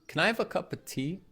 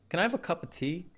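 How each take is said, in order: First: 'Cup of' is reduced to 'cuppa'. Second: The same.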